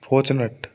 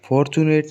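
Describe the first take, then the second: First: The last syllable is pronounced like a short 'ut'. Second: The last syllable is pronounced like 'ate'. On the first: The speaker calls it right. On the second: The speaker calls it wrong. "फॉर्चुनेट नहीं"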